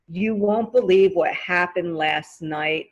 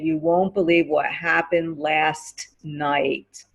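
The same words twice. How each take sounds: First: The T at the end of 'last' is dropped. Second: The T at the end of 'last' is pronounced. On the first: The speaker calls it right. "it's easier to say" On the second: The speaker calls it wrong. "if you say the T sound, you're putting more emphasis on the word"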